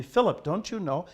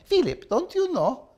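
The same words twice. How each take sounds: First: Said in the usual way. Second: High-pitched imitation with a heavy Russian accent; thick Russian accent. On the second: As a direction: mimic an old Russian teacher's thick accent. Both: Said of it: "With her thick Russian accent".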